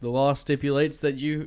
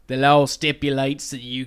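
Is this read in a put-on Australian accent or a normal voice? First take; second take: normal voice; Australian accent. First: It is read in the speaker's normal accent. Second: It is read in a put-on Australian accent.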